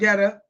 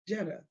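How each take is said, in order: First: The name starts with a hard g sound. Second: The name starts with a j sound. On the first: The speaker calls it wrong. "I thought it was Getta" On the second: The speaker calls it right. "it's pronounced as Jetta, like a car"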